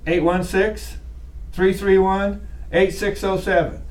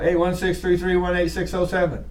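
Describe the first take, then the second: First: The digits come in groups with pauses between. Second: The digits come in one run without grouping pauses. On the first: "Why did I say it like that?" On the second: "Why didn't I just go"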